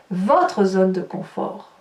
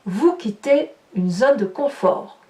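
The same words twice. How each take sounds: First: « Votre » appuyé, lent et plus bas; stress on votre. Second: Said in the usual way. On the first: Shown as a demonstration. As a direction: insister lentement sur « Votre ». (accent d'insistance sur « Votre », débit lent) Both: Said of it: "Je dis bien la vôtre".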